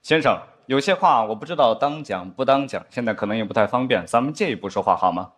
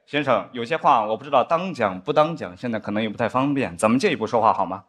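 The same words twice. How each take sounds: First: Lightly voiced secret-whisper tone of an old spy show; mock grave, low-key conspirator; a hint of a solemn TV spy; spy drama dialogue. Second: Lightly voiced solemn spy line, lower; same mock conspirator hush; a touch of grave TV drama; spy drama dialogue again. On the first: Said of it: "他们一般会有一段这样的对话". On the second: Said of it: "他就应该更加主动一点".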